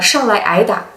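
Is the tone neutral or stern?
neutral. It is said in a plain, neutral tone. "say it in a normal accent"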